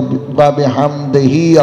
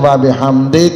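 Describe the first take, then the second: First: The final vowel is voiced and linked onward. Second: The final vowel is dropped at a stop. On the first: The recitation continues into the next phrase. "उसके साथ मिलाना है" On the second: The recitation stops here. "अगर यहां रुकना है तो व बिहम्दे कहेंगे"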